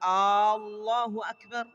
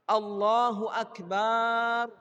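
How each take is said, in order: First: The opening vowel of Allah is drawn out. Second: The final vowel of akbar is drawn out. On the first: "kalau dia memanjangkan hamzah pada kalimat Allah" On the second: "atau dia panjangkan akbar"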